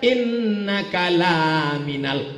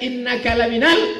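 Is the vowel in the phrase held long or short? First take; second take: long; short. First: The vowel is drawn out long. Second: The vowel is kept short. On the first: You are not a messenger. The speaker calls it wrong. "Tapi kalau panjang" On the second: You are a messenger. The speaker calls it right. "itu pendek"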